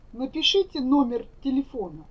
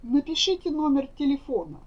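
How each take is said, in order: Both takes have the same delivery.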